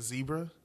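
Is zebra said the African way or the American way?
American. The word is said the American way. This is the usual way in the speaker's country. The speaker calls it right. "instead of zebra"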